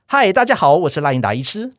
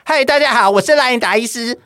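First: The voice is relaxed, supported from the belly. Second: The voice is tight and squeezed from the throat.

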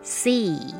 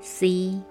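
First: The pitch falls at the end. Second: The pitch stays level throughout.

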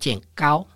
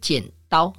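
First: The second syllable begins with a g sound. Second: The second syllable begins with a d sound. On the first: The speaker calls it wrong. "比如剪刀讲成剪高" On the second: The speaker calls it right. "比如剪刀讲成剪高"

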